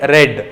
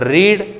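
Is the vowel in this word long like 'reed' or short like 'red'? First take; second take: red; reed. First: The vowel is short, like 'red'. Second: The vowel is long, like 'reed'.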